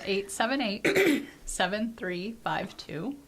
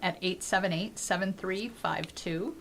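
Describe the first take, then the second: First: The number is said more slowly. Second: The number is said at a normal, quicker pace.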